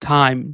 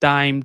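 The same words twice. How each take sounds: First: The t is said with a strong puff of air. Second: The t is said without a puff of air. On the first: The speaker calls it right. "টি না বলে ঠি বলে উচ্চারিত করতে হবে। যেমন টাইম" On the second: The speaker calls it wrong. "Normally আমরা বলি কি টাইম ... তাহলে কিন্তু আমাদের সুন্দর হচ্ছে না"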